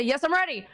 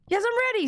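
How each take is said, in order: First: Said in the usual way. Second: High, excited shout-back; hype response. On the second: Pretend. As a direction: pump it up like a crowd. Hype call-and-response with viewers.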